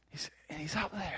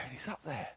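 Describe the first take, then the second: First: Said in the usual way. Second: Quiet echo. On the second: A narrator's reading. Preacher echoing the soaring eagle, hushed and fading. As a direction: softly echo it, almost to yourself.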